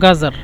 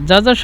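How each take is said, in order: First: The word begins with a hard 'g' sound. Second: The word begins with a 'j' sound. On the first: This is how Egyptians say it. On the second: This is the standard Arabic form.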